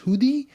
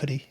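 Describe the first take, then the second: First: It is said as the local place name. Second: It is said like the English word hoodie. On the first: This is how the place it is named after is said. "the proper pronunciation is Hoodie" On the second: This is how most people casually say it. "everyone's just calling it Hoodie"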